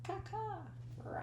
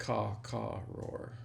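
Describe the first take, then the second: First: High bird caws, then a quiet roar; Wilderness Explorer call. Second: Bird caw then a roar; Wilderness Explorer call. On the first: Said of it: "Explorer call". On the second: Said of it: "That's how you say it". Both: Shown as a demonstration.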